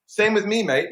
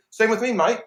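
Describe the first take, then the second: First: Put-on a high, louder retry of a hammy Australian accent; bad Australian accent. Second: Put-on a quick, high, hammy Australian accent; a light, clumsy Australian twang, pitched up; terrible Australian accent. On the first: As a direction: give the Aussie line another bad go. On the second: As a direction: toss it off as a bad Aussie impression. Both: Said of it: "that was a terrible Australian accent".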